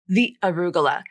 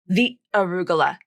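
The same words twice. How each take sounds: No difference in how they are said.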